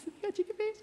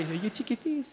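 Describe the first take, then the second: First: Squeaky higher cooing repeat; even higher baby talk. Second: Put-on high baby-talk question. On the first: Retold or imitated. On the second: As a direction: coo it up high. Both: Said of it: "they can just go".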